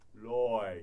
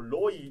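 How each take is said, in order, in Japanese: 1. 母音はゆっくり e のような音を通ります。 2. 母音は o から i へ、まっすぐ跳びます。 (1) "遠回りして絵を混ぜるといい" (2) "カタカナだとロイってなっちゃうんですけど"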